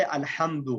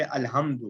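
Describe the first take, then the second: First: الحمد, Arabic ح kept distinct from ہ; correct throaty ha. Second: الحمد with a plain h in place of ح; mistaken soft ha. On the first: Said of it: "ہا کے ساتھ". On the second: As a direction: say الحمد as الهمد, with ordinary ہ. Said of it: "الحمد آگ کی حرارت کا ختم ہونا". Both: Shown as a demonstration.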